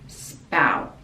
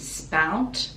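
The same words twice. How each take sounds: First: The final T is held, not released. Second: The final T is fully released. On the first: "or stop the tongue at the top of the mouth" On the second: "we can pronounce the T"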